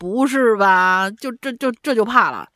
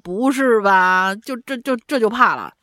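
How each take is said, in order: First: It is said in a sneering, mocking tone. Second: The same.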